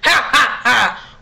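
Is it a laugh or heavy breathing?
laugh. It is a loud laugh.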